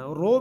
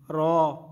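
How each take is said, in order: First: The vowel is a rounded o sound. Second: The vowel is a full, heavy aw sound. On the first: The speaker calls it wrong. "रो ओंठों को गोल नहीं करना, रो भी नहीं पढ़ना" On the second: The speaker calls it right. "बल्कि इसको पुर करना है, पुर पढ़ना है"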